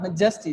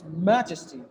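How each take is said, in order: First: MAJESTY stressed on the middle syllable, ma-JES-ty; mispronounced MAJESTY as ma-JES-ty; wrong stress in MAJESTY. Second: MAJESTY said MAJ-es-ty; MAJESTY with a strong opening syllable and falling end; first-syllable stress in MAJESTY. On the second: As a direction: hit the MAJ of MAJESTY, let the rest fall. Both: Shown as a demonstration. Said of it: "Not majesty, it's majesty".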